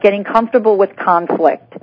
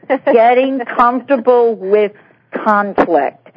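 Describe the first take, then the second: First: The phrase is said at a normal pace. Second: The phrase is said slowly and deliberately.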